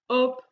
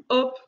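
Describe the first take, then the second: Both takes have the same delivery.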